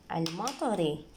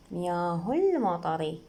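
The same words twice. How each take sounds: First: المطري with a sounded "al" at the start; read on its own. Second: مياه المطر slowly joined as "miyaahu-l-matari"; linked reading. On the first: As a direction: begin المطري on a clear hamza, "al-matari". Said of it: "إذا نقراها بوحدها نقرأ ال". (لفظ همزة أل) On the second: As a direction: drop the "a" of المطر and glide in from "hu". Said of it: "إذا نقراها وهي مياه تصير". (وصل بدون همزة) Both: Shown as a demonstration.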